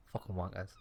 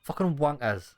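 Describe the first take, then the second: First: Muttered curse. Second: Mock curse in a put-on voice. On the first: Acted. Muttered curse under breath.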